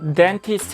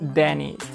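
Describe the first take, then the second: First: The t after n is clearly pronounced. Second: The t after n is dropped entirely. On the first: "dentist 해도 되는데" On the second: "좀 빨리 말하면 dentist 이렇게 발음을 합니다. 그래서 t 발음을 아예 안 해요"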